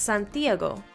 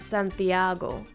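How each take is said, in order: First: The stress falls on the vowel i. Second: The stress falls on the vowel a. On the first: "I know it has to be on that I" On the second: "the second to last vowel in Santiago is the A, so that's where the most emphasis is going to be"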